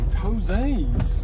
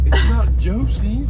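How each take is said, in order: First: "Jose's" said ho-SAYS, Spanish style; "Jose's" with a Spanish H sound; correct Spanish name. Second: "Josie's" said as JOH-zeez, English style; "Josie's" with an English J sound; wrong name. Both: Shown as a demonstration.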